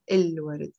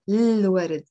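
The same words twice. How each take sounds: First: "الورد" with a clear vowel before the l; full article. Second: "الورد" begun on a long l, no vowel before it; elided article. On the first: Teacher showing the version to avoid, "الورد" with its article fully voiced. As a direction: sound the opening vowel of "الورد", el-ward. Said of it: "not الورد". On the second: Teacher showing learners a pronunciation, "الورد" starting directly on the l. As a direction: run the article of "الورد" straight into a held l. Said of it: "You can pronounce it الورد". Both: Shown as a demonstration.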